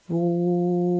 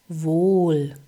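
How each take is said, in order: First: The vowel is held for a breath. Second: The vowel is short and normal.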